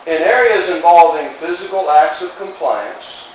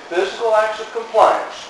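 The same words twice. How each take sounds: First: Said in the usual way. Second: Acts pushed high and leaned on; preacher hits the word acts; stress on acts. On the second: Shown as a demonstration. Preacher restating to his congregation, acts stressed.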